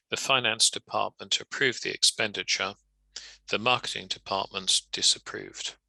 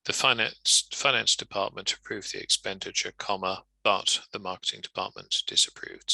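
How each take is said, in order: First: Full stop between "expenditure" and "The marketing"; a clear break between the sentences; two full sentences. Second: "comma" spoken, then "but" carries on; one sentence with a conjunction; joined with but. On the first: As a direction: read as two separate statements. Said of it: "A comma on its own, too weak". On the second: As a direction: link the two halves with "but". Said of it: "So the alternative will be". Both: Shown as a demonstration.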